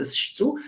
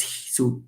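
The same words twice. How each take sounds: First: Shsu opened with an sh sound; wrong sh version. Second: Siksu opened with a palatal ich-sound before su. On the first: Lecturer showing what does not exist, shsu with sh. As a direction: say shsu with sh running into su. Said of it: "it's not a shsu". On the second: Lecturer demonstrating the retained sound, siksu with palatal fricative. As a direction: say siksu as hsu, with a palatal hiss. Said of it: "It's a h sound". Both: Shown as a demonstration.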